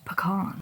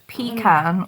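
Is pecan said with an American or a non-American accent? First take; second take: American; non-American. First: The word is said in an American accent. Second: The word is said in a non-American accent.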